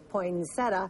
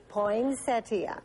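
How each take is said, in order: First: The word ends with a plain 'uh' sound. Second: The word ends with a full 'ee-uh' sound. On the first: "people don't even want to say ia" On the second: "is the proper pronunciation"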